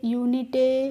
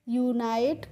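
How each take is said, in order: First: The ending sounds like 'itay' with short i. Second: The ending sounds like 'ite' with long i. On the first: The speaker calls it wrong. "इस तरीके से आपको नहीं पढ़ना है" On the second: The speaker calls it right. "इस तरीके से पढ़ेंगे"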